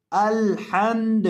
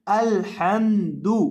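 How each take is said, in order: First: अलहम्द slowly with a falling tune, final द closed and silent of vowel; pause form. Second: अलहम्दु drawn slowly, ending on an open rising दु; connected reading. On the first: Teacher showing students the stop form of अलहम्द, slow and falling. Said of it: "आखिर से हम दाल को साकिन कर देंगे". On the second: Teacher reciting अलहम्दु to students in connected form, slow and rising. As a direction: recite अलहम्दु with the final दु voiced and lifted. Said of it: "इसकी आवाज़ आनी है". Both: Shown as a demonstration.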